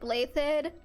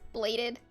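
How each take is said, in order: First: The middle consonant is a soft 'th' sound. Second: The middle consonant is a plain 'd' sound. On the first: This is how the name is officially pronounced. "his last name is pronounced like Blaythed" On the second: This is how the speaker reads the name in their head. "in my head, just is bladed"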